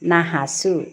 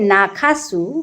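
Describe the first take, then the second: First: The middle consonant is a plain h sound. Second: The middle consonant is a breathy kh sound. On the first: This is how people actually say it in speech. "আমরা যখন বলি তখন বলি নাহাসু" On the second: This is the full, proper form. "Actually নাখাসু"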